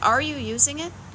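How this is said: The question is asked in a sharp, accusing tone. It blames the listener for not using it. The speaker calls it wrong. "I don't mean that accusingly, and I'm going to back off the tone I just used"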